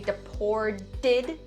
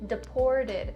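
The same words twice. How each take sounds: First: The final 'd' sounds are strongly over-enunciated. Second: The final 'd' sounds are soft and subtle. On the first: The speaker calls it wrong. "just don't over enunciate it and don't say deported. Not correct" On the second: The speaker calls it right. "The first d sound is a little bit more subtle"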